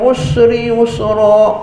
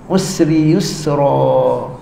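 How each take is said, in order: First: The s sound is thick and heavy. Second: The s sound is thin, with spread lips. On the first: The speaker calls it wrong. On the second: The speaker calls it right. "sin nipis, senyumkan dia"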